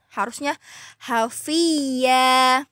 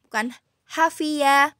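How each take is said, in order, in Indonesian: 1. Bunyi y yang dobel ditahan lama. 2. Bunyi y dipotong pendek.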